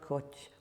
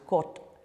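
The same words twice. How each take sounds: First: The final t has strong aspiration. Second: The final t has little aspiration. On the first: The speaker calls it wrong. "not kot" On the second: The speaker calls it right. "is not so aspirated"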